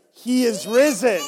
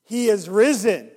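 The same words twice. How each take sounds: First: Call louder. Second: Call to congregation. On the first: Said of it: "You can definitely be louder". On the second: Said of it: "say he is risen indeed really loud". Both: Shown as a demonstration.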